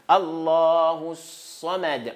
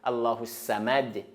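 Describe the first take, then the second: First: The s is a heavy, emphatic s sound. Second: The s is a plain, light s sound. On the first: The speaker calls it right. "On ferme la bouche dedans" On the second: The speaker calls it wrong. "c'est faux"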